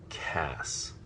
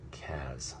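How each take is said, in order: First: The name ends with the sound of 'ass'. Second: The name ends with the sound of 'as'. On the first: The speaker calls it right. "the vowel and consonant cluster that makes the sound ass" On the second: The speaker calls it wrong. "which would make the sound as"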